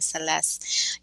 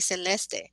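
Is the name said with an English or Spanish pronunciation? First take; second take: English; Spanish. First: The name is said with an English pronunciation. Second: The name is said with a Spanish pronunciation. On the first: "for confirming how you're pronouncing it" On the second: "in Spanish, we say Celeste"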